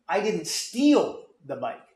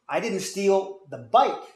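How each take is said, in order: First: The word "steal" carries the strongest stress. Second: The word "bike" carries the strongest stress. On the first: The bike was taken but only borrowed. "I borrowed it, but I didn't steal" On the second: Something else was stolen instead. "I stole something, but it wasn't your bike"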